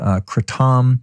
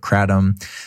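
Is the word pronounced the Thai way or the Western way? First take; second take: Thai; Western. First: It is pronounced the Thai way. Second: It is pronounced the Western way. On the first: "which is what it's called in Thailand and Southeast Asia" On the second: "People in the US, Westerners, call it Kratom"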